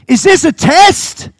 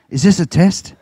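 First: Much higher, louder and slow; preaching shout. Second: Said in the usual way. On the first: Shown as a demonstration. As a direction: thunder the question at the whole church.

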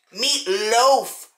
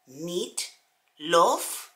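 First: "meat loaf," with loaf said clearly as "lohf"; correct pronunciation. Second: Put-on "meat loaf," with loaf said as "lof" in a foreign accent; foreign mispronunciation. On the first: Shown as a demonstration. Correcting the foreign friend, "loaf" spoken as "lohf". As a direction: set her straight: "loaf" with a long oh. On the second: Friend insists on her word: "loaf" said as "lof", foreign accent. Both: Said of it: "not meat love, meat loaf".

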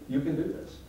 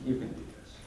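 First: Said in the usual way. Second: Softly voiced, nearly whispered reassurance; hushed encouragement. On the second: Retelling what people told him, hushed. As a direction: coax it gently under the breath. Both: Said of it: "And people say".

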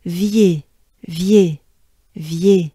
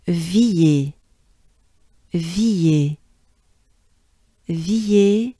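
First: "Vier" as one quick, punched syllable; "Vier" shortened and falling; shortened, faster. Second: "Villiers" slowly, both sounds stretched; slow teaching take of "Villiers"; drawn-out syllables. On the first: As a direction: run the sounds of "Vier" together, short and louder. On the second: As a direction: stretch out "Villiers" for learners to copy. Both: Shown as a demonstration. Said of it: "shortened and faster, if you will".

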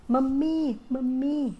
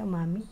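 First: Mami, mami called louder and higher with force; stressed call. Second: Said in the usual way. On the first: Shown as a demonstration. Vlogger showing how India calls Mami, forceful call. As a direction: hit each Mami hard, like calling out. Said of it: "Talagang may diin". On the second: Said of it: "Tawag ka".

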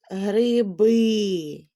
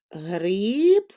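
First: Гриби with the stress moved to final БИ; stress on last syllable. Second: Гриб drawn out on its one stressed vowel; stressed single syllable. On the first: Teacher showing children shifting stress, гриби stressed on БИ. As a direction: draw out гриби, leaning on the ending БИ. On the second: Teacher giving children an example pair, гриб stressed and drawn out. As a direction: stretch the И in гриб. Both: Shown as a demonstration. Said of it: "щоб наголос у слові змінював".

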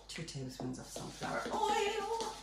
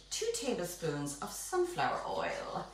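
First: Much higher, lilting silly voice. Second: Said in the usual way. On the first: Pretend. Baker adding oil for the viewers, silly high voice. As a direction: repeat it high and playful, drawing out "oil".

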